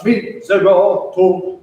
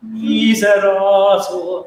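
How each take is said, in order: First: "miserator" in heavy separate syllables with dark vowels; a grudging, dark-vowelled miserator. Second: "Miserator" slow and open, with bright vowels; a long, smooth Miserator on bright vowels. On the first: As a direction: make miserator sound begrudged, vowels pulled back. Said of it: "which sounds a bit grudging". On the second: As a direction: draw out Miserator, keeping every vowel bright. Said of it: "quite bright vowels". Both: Shown as a demonstration.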